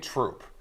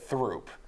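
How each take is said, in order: First: The name begins with a plain T sound. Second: The name begins with a TH sound. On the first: This is how locals actually say it. The speaker calls it right. "Look at Troop" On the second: This follows the spelling. The speaker calls it wrong. "We would be laughed at if we said Throop"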